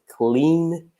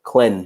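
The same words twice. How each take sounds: First: The vowel sounds like in the word clean. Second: The vowel sounds like in cleanliness. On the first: The speaker calls it wrong. "we don't say clean" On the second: The speaker calls it right. "but clean, cleanliness"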